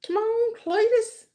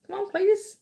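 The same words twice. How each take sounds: First: Higher, slower mock taunt; high, slow teasing call; drawn-out taunt. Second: High mock taunt; high put-on taunting voice. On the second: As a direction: goad him in a high silly voice.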